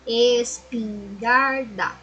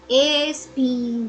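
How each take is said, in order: First: Espingarda said as one slow word; whole word, slow. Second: Es-pin-gar-da, said slowly syllable by syllable; split into syllables. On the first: Teacher repeating espingarda to her class as one whole word, slow. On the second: Teacher showing her class how to split espingarda, slow syllables. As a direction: break espingarda into es-pin-gar-da, one beat each. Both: Shown as a demonstration. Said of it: "Por exemplo, ó".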